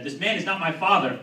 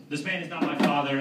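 First: Louder, higher accusing cry; retold yell. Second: Raised voice, held back; mild retold yell. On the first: Comic calling to the cops who arrived, retold yell. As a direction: yell it out as a public alarm. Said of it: "I yelled the first thing". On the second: Comic describing yelling in a supermarket, mild mock yell. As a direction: call it out as a mock protest. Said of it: "I'd yell".

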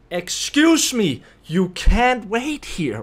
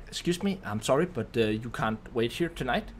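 First: Loud, slow, drawn-out demand; exasperated near-yell, higher and stretched; almost yelling. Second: Soft, apologetic excuse me; retold polite request, slightly hesitant. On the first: Retold or imitated. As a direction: raise your voice right into their face, word by word. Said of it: "I almost yell at her into her face". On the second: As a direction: politely turn someone away, quietly and carefully. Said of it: "I politely tell her".

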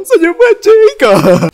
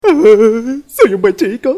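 First: Very high, loud, drawn-out plea; loud desperate good boy. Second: Slow, drawn-out, higher with a laugh; slow singsong good boy. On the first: Kid begs mom for candy, very loud and high. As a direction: beg at full volume. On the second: Kid promises mom he'll behave, slow singsong. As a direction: coo it out sweetly to earn candy. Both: Acted.

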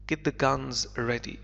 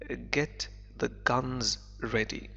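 First: Understated shouted order; mild narrated shout. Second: Said in the usual way. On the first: A narrator's reading. Barbarossa orders his crew to ready the guns, mildly shouted. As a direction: read it as a restrained command. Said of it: "shouted Barbarossa".

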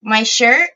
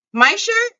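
First: Said in the usual way. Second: High, squeaky repeat of the question; squeaky high echo. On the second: Shown as a demonstration. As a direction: squeak it back in mock disbelief.

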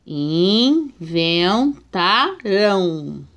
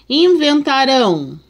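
First: "Inventarão" split into syllables very slowly; "Inventarão" in slow separated syllables; slow syllable reading. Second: Said in the usual way. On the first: Shown as a demonstration. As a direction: sound out "Inventarão" piece by piece. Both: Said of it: "vamos ver a separação".

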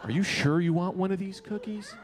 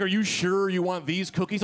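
First: Mock judgmental question; rude doubting. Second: Imitating a concerned warning; retold as a careful, well-meant check. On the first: Party girl to a man grabbing a cookie, rude doubting. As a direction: imitate her snooty doubt, understated. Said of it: "Why was she so rude". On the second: Party girl warning a man about pot cookies, warning. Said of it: "was trying to warn me".

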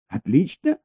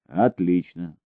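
First: High rising disbelieving echo; incredulous echo. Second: Said in the usual way. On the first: A narrator's reading. Elina echoes Baker in high disbelief. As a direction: throw his word back at him. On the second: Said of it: "сказал Бейкер".

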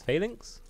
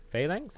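First: "Phalanx" with a reduced "inks" ending, questioning; unsure pronunciation. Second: "Phalanx" with a full "anks" ending, questioning; unsure pronunciation. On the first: Streamer unsure of a word, "Phalanx" as questioning FAY-links. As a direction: try "Phalanx" as FAY-links, rising high. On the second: Streamer unsure of a word, "Phalanx" as questioning FAY-lanks. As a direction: try "Phalanx" as FAY-lanks, rising high. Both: Shown as a demonstration. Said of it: "I don't know how you say it".

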